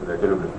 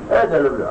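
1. Сказано холодно, без всякого чувства. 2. Сказано тепло, с настоящим чувством. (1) "а где просто говорят" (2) "где к ней проявляют чувства"

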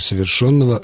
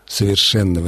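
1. Ударный гласный звучит как 'yo'. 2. Ударный гласный звучит как 'e'. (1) "Ни в коем случае не совершенного" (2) "глагол совершенного вида"

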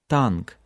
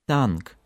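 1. Звук t произносится с небольшим выдохом. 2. Звук t произносится с небольшим выдохом.

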